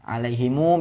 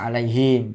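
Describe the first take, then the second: First: The final m is followed by a u vowel. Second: The word ends on a closed, vowelless m. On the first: "Sila mim jamak jadi alaihimu" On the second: "bisa sukun"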